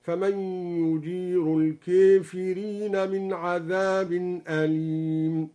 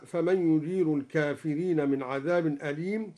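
First: الكافرين chanted slowly with the a bent toward e, kefirin; slow chant of الكافرين with imala; slow recited variant. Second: Said in the usual way. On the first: Shown as a demonstration. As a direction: intone الكافرين with imala, the alif leaning to e. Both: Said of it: "أمال الكافرين هكذا".

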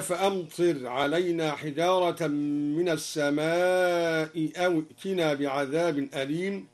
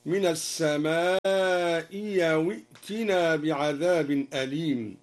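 First: Said in the usual way. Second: Replace the hamza with a ya glide; second hamza turned to ya. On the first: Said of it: "بإبدال الهمزة الثانية ياء". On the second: Shown as a demonstration. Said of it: "بإبدال الهمزة الثانية ياء هكذا".

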